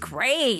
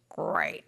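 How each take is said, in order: First: It sounds excited and enthusiastic. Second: It sounds flat and sarcastic.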